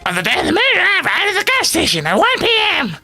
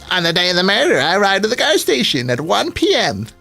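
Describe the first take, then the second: First: It is said in a put-on Toad voice. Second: It is said in his normal voice.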